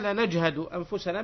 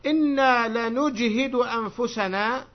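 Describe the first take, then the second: First: "لنجهد" read lanajhadu, with a vowels; "لنجهد" with fatha on nun and on ha; second vowelling. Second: "لنجهد" read lanujhidu, with u then i; first vowelling. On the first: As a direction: say "لنجهد" as la-naj-ha-du. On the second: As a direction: slowly recite "لنجهد" as la-nuj-hi-du. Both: Shown as a demonstration. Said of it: "بكلا الضبطين".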